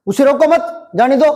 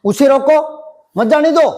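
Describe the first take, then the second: First: उसे रोको मत as one phrase, then जाने दो; pause after मत. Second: उसे रोको, short break, मत जाने दो; pause after रोको. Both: Shown as a demonstration. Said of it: "अलग अलग अर्थ निकल रहे".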